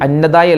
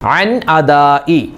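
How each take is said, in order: First: The two words run together as one. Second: The two words are kept clearly apart. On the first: The speaker calls it wrong. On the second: The speaker calls it right.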